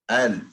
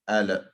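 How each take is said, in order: First: The l ends cleanly with no added vowel. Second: The l bounces into an added vowel sound. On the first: The speaker calls it right. "the sound goes to my throat" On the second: The speaker calls it wrong. "That's the bounce"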